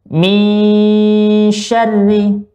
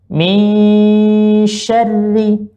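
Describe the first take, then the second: Both takes have the same delivery.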